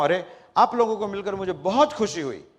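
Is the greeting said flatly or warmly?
warmly. It is said warmly, with lively expression.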